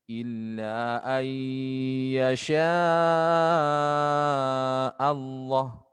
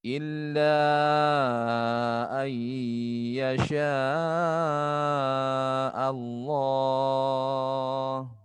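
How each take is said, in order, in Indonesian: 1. Vokal pada Allah dibaca pendek. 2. Vokal pada Allah dibaca panjang. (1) "Jangan dibaca" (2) "Lafzul jalalah panjangkan"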